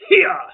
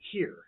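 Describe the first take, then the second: First: The word is stretched into two syllables. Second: The word is said as one syllable. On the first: "a diaphragm-induced two-syllable word" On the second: "supposed to be one syllable"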